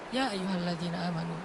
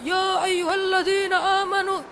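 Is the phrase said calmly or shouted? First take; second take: calmly; shouted. First: The phrase is said softly and calmly. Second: The phrase is said loudly, almost shouted. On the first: The speaker calls it right. "tapi santai turunnya" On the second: The speaker calls it wrong. "Bukan dengan suara teriak. Kadang kita ya ayyuhalladzina amanu, tergantung khotibnya"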